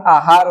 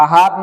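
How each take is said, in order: First: आहार with long first aa; correct form. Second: आहार with short first a, "ahaar"; wrong form. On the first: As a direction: open आहार on a full "aa". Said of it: "आहार होगा". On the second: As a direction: clip the opening of आहार. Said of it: "आहार नहीं". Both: Shown as a demonstration.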